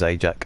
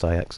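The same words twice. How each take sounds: First: It sounds like the cleaning product's name. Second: It sounds unlike the cleaning product's name. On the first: The speaker calls it wrong. "I used to say Ajax all the time because there is a brand called Ajax" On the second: The speaker calls it right. "he used to correct me on it and say no, it's pronounced Ajax"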